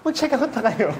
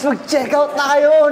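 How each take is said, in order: First: The voice sounds fearful and urgent. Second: The voice sounds excited and upbeat. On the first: "Yung fear na hindi na nila mati-check out kapag ka ang bagal nila"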